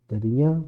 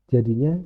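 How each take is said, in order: No difference in how they are said.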